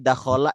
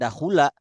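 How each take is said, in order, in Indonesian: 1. Vokal kedua adalah a. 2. Vokal kedua adalah u. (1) "Kita sudah hafal nih dakhola" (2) "tidak akan dahula"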